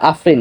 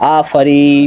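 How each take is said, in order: First: No vowel is heard between f and r. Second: A clear 'a' vowel comes between f and r. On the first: The speaker calls it wrong. "আসলে আফরি না" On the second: The speaker calls it right. "উচ্চারণ হবে আফারি, এরকম"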